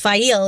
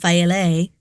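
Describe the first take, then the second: First: The name ends without a sounded final vowel. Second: The name ends with a sounded final vowel. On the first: The speaker calls it right. "it's Fail" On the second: The speaker calls it wrong. "it's not Faile"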